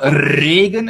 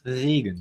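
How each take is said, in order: First: The R at the start is strongly rolled. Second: The R at the start is soft and throaty. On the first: The speaker calls it wrong. "It's not Regen" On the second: The speaker calls it right. "it's soft"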